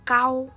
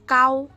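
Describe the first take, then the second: Both takes have the same delivery.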